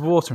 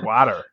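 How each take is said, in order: First: The word is said in a non-American accent. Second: The word is said in an American accent. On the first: American bartenders do not understand it. The speaker calls it wrong. "saying water can really really confuse bartenders over there" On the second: American bartenders understand it. The speaker calls it right. "You gotta say water"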